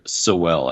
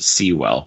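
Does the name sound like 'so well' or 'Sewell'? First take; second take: so well; Sewell. First: The name is said like the words 'so well'. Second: The name is said as 'Sewell'. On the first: The speaker calls it wrong. "it's just kind of jarring to hear so well" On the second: The speaker calls it right. "as opposed to Sewell"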